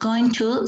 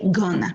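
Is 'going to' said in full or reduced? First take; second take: full; reduced. First: Both words are said fully and separately. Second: The words are reduced and blended together. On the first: "the reduction of going to" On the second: "sounds like gonna"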